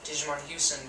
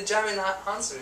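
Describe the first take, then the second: First: The first name begins with a 'Digi' sound. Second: The first name begins with a 'Jai' sound. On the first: The speaker calls it wrong. "I've been saying" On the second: The speaker calls it right. "that's so much better"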